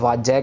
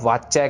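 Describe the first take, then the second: First: The word uses a 'j' consonant sound. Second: The word uses a 'ch' consonant sound. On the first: The speaker calls it wrong. "जज्जा लगा देते हैं यहाँ पे, ये भी गलत है" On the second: The speaker calls it right. "वाच्य चच्चे के साथ है"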